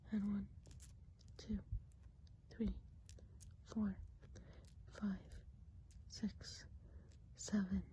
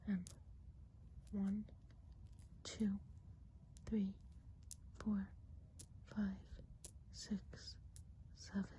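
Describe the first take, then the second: No difference in how they are said.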